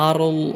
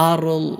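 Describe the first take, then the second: No difference in how they are said.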